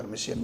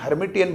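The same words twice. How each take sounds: First: हर्मिशियन said with SH in place of T, her-mi-shi-an; हर्मिशियन pronounced her-mi-shi-an, softer and lower; Hermitian with a SH sound. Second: हर्मिटियन said with a clear T, her-mi-ti-an; हर्मिटियन pronounced her-mi-ti-an with a T; Hermitian with a T sound. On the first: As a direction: say हर्मिशियन the other way, with a soft SH sound. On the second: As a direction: say हर्मिटियन with the T sound, as in the usual textbook form. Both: Shown as a demonstration. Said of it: "कुछ लोग इसे हर्मिशियन भी बोलते हैं".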